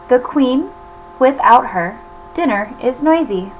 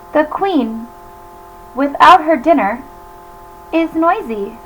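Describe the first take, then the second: First: There is a pause right after the word her. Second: There is a pause right after the word dinner. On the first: Without the queen present, the dinner is noisy. "It's saying that without the queen, everybody misbehaves" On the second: The queen is noisy when she has no dinner. "the queen, comma, without her dinner, comma, is noisy"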